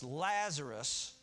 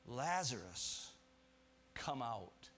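First: A slow, drawn-out summons, raised over the crowd; loud call. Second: Said in the usual way. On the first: A narrator's reading. Preacher voicing Jesus calling Lazarus from the tomb, loud slow call. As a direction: call the dead man's name out slowly. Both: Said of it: "And so Jesus said with a loud voice".

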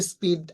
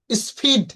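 First: "স্পিড" with a plain P after S; no puff on the P of "স্পিড"; unaspirated P. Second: "স্পিড" with a puffed PH after the S; breath burst on the P of "স্পিড"; wrongly aspirated P. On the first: Teacher showing the usual correct way, unaspirated P. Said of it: "অ্যাসপ্রাইডেড সাউন্ডে উচ্চারণ করব না". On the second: Teacher showing the mistake after S, wrongly aspirated P. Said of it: "এরকম উচ্চারণ করব". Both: Shown as a demonstration.

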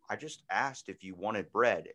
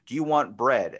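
First: Said in the usual way. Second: Loud, confrontational misreading of a text; wrong tone. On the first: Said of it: "but you read the text and it says". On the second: Acted. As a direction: blurt it like a hostile challenge. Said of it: "they pull the wrong tone out of it".

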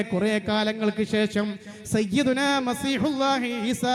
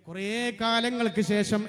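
First: കുറേ കാലങ്ങൾക്ക് ശേഷം said slowly, each word weighed; slow down and lean into കുറേ കാലങ്ങൾക്ക് ശേഷം; slow and weighty. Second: Said in the usual way. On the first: Shown as a demonstration. Preacher calls the crowd to listen, then slows for weight. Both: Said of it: "ഇനി കേൾക്കണേ".

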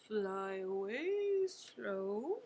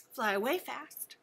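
First: Drawn out, low and slow. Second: Quick and snappy; fast. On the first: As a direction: stretch every word out. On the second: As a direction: rattle it off fast. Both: Shown as a demonstration.

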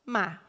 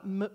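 First: Said in the usual way. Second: "ma" broken into consonant, pause, vowel; sounds split apart. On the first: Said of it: "A gente fala". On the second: Shown as a demonstration. Teacher showing how nobody says it, "ma" split in two. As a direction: say "ma" as two separate sounds, m, then a. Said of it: "a gente não fala".

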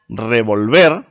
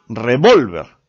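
First: Revolver, stress on -VER; stress on the last syllable. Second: Revólver, stress on -VÓL, slow; stress on the second syllable. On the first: Teacher contrasting stress: revolver stressed on the end. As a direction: say revolver with the weight on the final syllable. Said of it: "Revolver es una palabra aguda". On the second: Teacher contrasting stress: revólver stressed in the middle. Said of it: "revólver es una palabra grave". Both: Shown as a demonstration.

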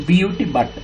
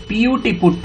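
First: బియూటీ spelled out letter by letter, then బట్ with an open short a as in cut; teacher spells బియూటీ and reads బట్ with the cut vowel; spelling then saying but. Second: పియూటీ spelled out letter by letter, then పుట్ with a rounded oo as in foot; teacher spells పియూటీ and reads పుట్ with the foot vowel; spelling then saying put. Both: Shown as a demonstration. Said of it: "పియూటీ పుట్ అంటే బియూటీ బుట్ అనం".

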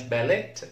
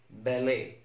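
First: باليت ending in a hard T; باليت with the silent final T sounded; wrongly sounded T. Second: باليه ending on an "ay" vowel; باليه left open at the end, T silent; correct silent T. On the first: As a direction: mispronounce باليت as "ba-let". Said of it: "ما اسمهاش". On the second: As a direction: say باليه as "ba-lay", no final T. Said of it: "ما اسمهاش باليت". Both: Shown as a demonstration.

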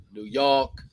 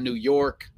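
First: New York with the R dropped, "Noo Yawk"; local New York pronunciation. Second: New York with a clearly sounded R in York; standard New York pronunciation. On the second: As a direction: pronounce the R in York fully. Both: Shown as a demonstration. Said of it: "not New York".

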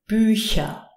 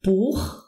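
First: Bücher with soft palatal ch, ending falling; long Ü, hissed ch in Bücher. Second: Buch with throaty ch, ending rising; back-throat ch. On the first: Teacher contrasting two ch sounds, Bücher with soft ch. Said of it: "we pronounce it Ch". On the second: Teacher contrasting two ch sounds, Buch with throaty ch. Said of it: "you pronounce it". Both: Shown as a demonstration.

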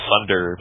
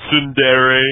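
First: "sunder" said with a plain s, no t sound. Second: "Tsundere" with a clear ts at the start. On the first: Shown as a demonstration. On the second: Retold or imitated. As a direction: pronounce "Tsundere" with a crisp ts. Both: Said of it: "but then other people were like".

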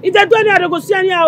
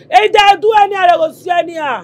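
First: Said in the usual way. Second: Angry shouted threat. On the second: Acted. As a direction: shout the threat, hard and loud.

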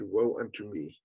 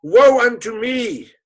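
First: Low, soft, broken murmur of grief; father's hushed self-reproach; quiet lament. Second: Loud, high, slow lament; father's anguished wail at losing his son; wailing cry. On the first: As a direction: breathe it out as a defeated sigh. The father again said. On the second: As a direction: cry it out to the heavens in grief. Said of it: "And he cried". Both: Acted.

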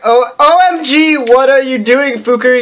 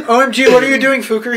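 First: Raised, higher-pitched hammed-up anger; mock angry shout. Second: Said in the usual way. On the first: A narrator's reading. Reader redoes the professor catching a snooper, mock angry shout. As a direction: replay it as an indignant outburst. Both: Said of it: "he shouted angrily".

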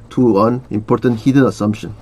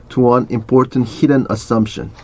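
No difference in how they are said.

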